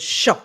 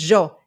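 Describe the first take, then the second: First: The word begins with a sh sound. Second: The word begins with a y sound. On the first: "Argentinians will h- talk with a sh sh with for the y" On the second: "I use the yo instead of the sho"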